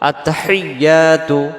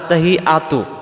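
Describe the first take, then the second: First: The word flows smoothly with a doubled y sound. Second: The word breaks after hi without doubled y. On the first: The speaker calls it right. "এমন আওয়াজ হবে" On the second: The speaker calls it wrong. "আমরা কি ভুল করে ফেলি, আমাদের উচ্চারণে"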